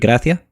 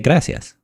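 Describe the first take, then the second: First: The final S sound is dropped. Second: The final S sound is pronounced. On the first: "some people don't even pronounce the final S" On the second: "or you can say gracias"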